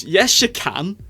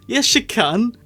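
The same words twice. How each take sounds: First: Said in the usual way. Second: "Yes, you can" pushed higher with rising insistence; insistent retort. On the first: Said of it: "repeated retort". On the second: Shown as a demonstration. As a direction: argue back, stress on "you". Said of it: "repeated retort, higher".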